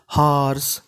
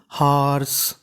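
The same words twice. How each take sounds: The two takes are said the same way.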